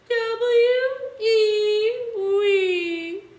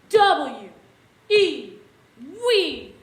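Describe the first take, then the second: First: It sounds like a sad crying baby. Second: It sounds loud and really angry.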